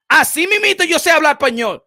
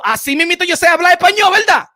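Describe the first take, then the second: First: Said in the usual way. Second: High, loud and fast mocking tag on "así mismito yo sé hablar español"; sarcastic jab. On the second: Real, not acted. To critics who doubt his Spanish, loud sarcastic mockery. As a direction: throw the line back at them sarcastically.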